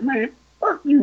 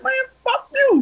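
First: Raised-pitch mock cursing; retold angry curse. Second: Very high, indignant retold comeback; heated curse back. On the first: Other driver cursing him in traffic, mock angry. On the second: Him cursing back at the driver, high and heated.

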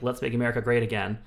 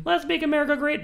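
First: Said in the usual way. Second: Much higher, proclaimed with LET'S stressed; mock rally slogan. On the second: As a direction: belt "Let's make America great" like a campaign cry.

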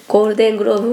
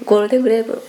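First: ゴールデングローブ with a clear ロー in グローブ; corrected pronunciation. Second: ゴールデングレーブ with グレーブ instead of グローブ; slip: say ゴールデングレーブ, vowel e in グレー; mispronounced Golden Globe. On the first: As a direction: fix it: ゴールデングローブ, long o in ロー. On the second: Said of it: "ゴールデングローブもラミ・マレック". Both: Real, not acted.

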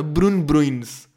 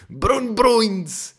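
First: "Bruno Bruins" said slowly, drawn out; slow Dutch-sounding name. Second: "Bruno Bruins" very slow, high and louder; higher slow mock name. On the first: Telling listeners the minister's name, slowly savoured. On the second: Repeating the Dutch minister's name, high and amused. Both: Shown as a demonstration.

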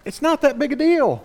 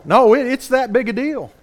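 First: Higher-pitched brush-off of a doubter; imitated excuse, pitched up; dismissive objection. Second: "that" stressed to contradict, pitched up; emphatic correction leaning on "that"; firm rebuttal. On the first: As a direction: play an objector shrugging it off. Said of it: "You say, "Yeah, but". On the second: Real, not acted. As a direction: push back hard on "that". Preacher rebuts the quoted objection.

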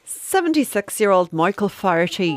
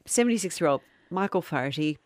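First: Put-on whispered Irish accent on a name; hushed mock Irish storyteller. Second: The name with just a touch of Irish; barely Irish retelling. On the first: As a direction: breathe the name out in an Irish lilt. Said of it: "We've gone straight into an accent". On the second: Acted. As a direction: try plain but let a little Irish slip. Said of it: "start again without being silly".

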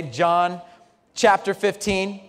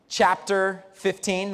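First: Chapter fifteen spelled out slowly and firmly; slow emphatic repeat. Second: Said in the usual way. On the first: Shown as a demonstration. Pastor repeating the passage, slow emphasis. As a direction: repeat the reference, slow and clear. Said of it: "That's where we are today".

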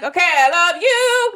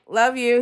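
First: High, drawn-out singsong declaration; exaggerated sincerity. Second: Said in the usual way. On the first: Wife told by husband to mean it, hammed-up singsong. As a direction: overdo the love in a slow lilt. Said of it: "Say it like you mean it". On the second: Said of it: "Say it louder".

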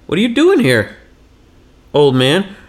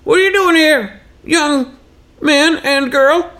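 First: Put-on questioning kids. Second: Very high, put-on old-timer voice; old Texan man. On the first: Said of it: "but they're like". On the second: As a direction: throw the question back as a high-voiced Texan geezer. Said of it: "he grew up in Texas".

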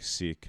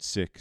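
First: Sikh said like "seek" with a long ee; "Sikh" rhymes with "week". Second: Sikh said like "sick" with a short i; "Sikh" rhymes with "thick". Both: Shown as a demonstration. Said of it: "you can pronounce it Sikh, Sikh".

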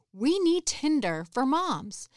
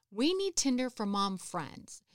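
First: Higher, louder, slowed proclamation of We need Tinder for moms; declaring the idea to fellow moms; emphatic announcement. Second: Said in the usual way. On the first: Retold or imitated. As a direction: sound it out like a big eureka pitch. Announcing her big idea.

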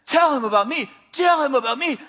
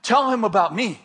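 First: Higher, insistent command; more intense. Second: Measured inner prompting; voice in the mind. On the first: Inner voice keeps pressing the speaker, intense and insistent. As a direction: press the order harder each time. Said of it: "this voice is getting more intense". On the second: Inner voice prompts the frightened speaker, steady instruction. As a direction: give a simple, steady instruction. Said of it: "I hear this voice in my mind". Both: Retold or imitated.

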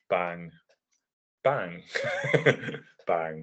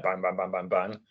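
First: "bang" said slowly with long pauses between each; slow spaced bangs. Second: "bang, bang, bang" fired off quickly, one after another; rapid bangs. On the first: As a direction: drag "bang... bang... bang" out with long gaps. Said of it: "as opposed to, like, a New Japan". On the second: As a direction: rattle off "bang" back to back with no gaps. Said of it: "a Noah kind of style of, like, match delivery". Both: Shown as a demonstration.

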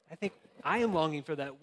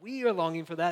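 First: I think I AM longing for that, with AM leaned on; stress on am. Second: We ARE longing for that, with ARE leaned on; are said a little louder and with weight; stress on are. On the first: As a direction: press the word am to own the longing. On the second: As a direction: push the word are to include everyone. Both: Shown as a demonstration. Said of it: "builds I, we, everybody".

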